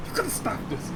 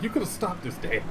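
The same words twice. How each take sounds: First: High, soft, breathy fake sob; mock crying. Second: Mock whine. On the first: Kid pleading with dad, mock crying whimper. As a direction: whimper it like a kid about to cry. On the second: Kid blaming dad, whining.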